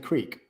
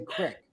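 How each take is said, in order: First: It is said the speaker's own usual way. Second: It is said the way Wisconsin speakers say it. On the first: This is how the speaker normally says it. "No, I say creek" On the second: This is how people in Wisconsin say it. "In Wisconsin, they say crick"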